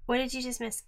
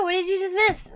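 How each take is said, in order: First: Said in the usual way. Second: Higher, louder echoed question; question thrown back. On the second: Real, not acted. Host answering a viewer's question with the same one, thrown back.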